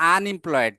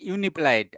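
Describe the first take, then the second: First: The word begins with an 'uh' sound. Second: The word begins with a 'you' sound. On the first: The speaker calls it right. "আমরা বলতেছি" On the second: The speaker calls it wrong. "আমরা বলি না"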